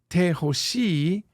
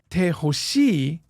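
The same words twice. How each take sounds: First: The voice rises at the end, as a question. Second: The voice falls at the end, as a statement.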